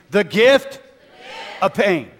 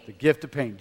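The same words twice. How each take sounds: First: High, loud call to the crowd; getting louder. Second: Said in the usual way. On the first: Shown as a demonstration. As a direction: push it louder so all repeat. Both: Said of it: "Come on, I can't hear you".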